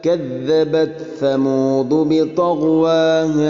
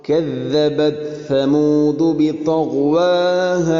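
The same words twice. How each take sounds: The two takes are said the same way.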